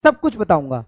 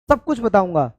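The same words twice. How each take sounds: The two takes are said the same way.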